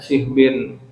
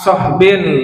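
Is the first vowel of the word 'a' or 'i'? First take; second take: i; a. First: The first vowel is a front i sound. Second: The first vowel is an open a sound. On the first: "dan dibolehkan kasroh sodnya" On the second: "dan difatahkan sodnya, soh gitu"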